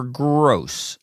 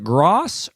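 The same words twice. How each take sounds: First: "Gross" drawn out to rhyme with "dose"; Gross with long o. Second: "Gross" mispronounced to rhyme with "moss"; Gross with open vowel. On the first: Restaurant host checking a surname, "Gross" said with a long "oh". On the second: Restaurant host checking a surname, "Gross" said with an open "aw". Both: Retold or imitated. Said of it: "there would be like, "Is it".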